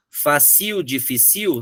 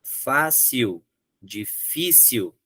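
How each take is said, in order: First: Fácil and difícil stressed at the end, fa-CIL, difi-CIL; fácil, difícil with final stress; wrong stress, questioning. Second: Fácil and difícil slowly, stressed FÁ and FÍ; slow fácil, difícil, paroxytones; correct stress, slow. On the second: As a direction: draw out fácil, difícil with stress moved back. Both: Shown as a demonstration. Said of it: "Não, fácil, difícil".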